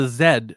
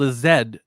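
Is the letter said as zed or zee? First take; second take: zed; zed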